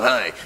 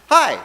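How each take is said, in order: First: It is said coldly, without a smile. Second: It is said warmly, with a smile.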